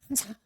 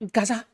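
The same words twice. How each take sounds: First: The word is said with a foreign-sounding pronunciation. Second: The word is said with a plain English pronunciation. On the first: The speaker calls it right. "It's pronounced Gaza. In the in my in my mother's mother's traditional second removed tongue" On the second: The speaker calls it wrong. "it's not pronounced Gaza"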